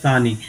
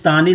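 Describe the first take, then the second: First: The word begins with an s sound. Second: The word begins with a t sound. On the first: This is the proper form of the word. The speaker calls it right. "सानी होता है, सानी" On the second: This is how people commonly say it. The speaker calls it wrong. "तानी ऐसे बोलते हैं लोग तानी, लेकिन तानी नहीं होता"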